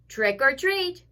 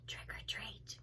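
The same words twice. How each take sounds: First: The phrase is said a little louder. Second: The phrase is said very softly. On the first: "He said it a little louder" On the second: "so he said very softly"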